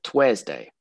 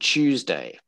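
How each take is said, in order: First: It begins with a plain 't' sound. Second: It begins with a 'choo' sound. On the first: The speaker calls it wrong. "She would pronounce it Tuesday. I found it phonetically" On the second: The speaker calls it right. "connecting the choo-choo train with Tuesday then helps you to make that sound"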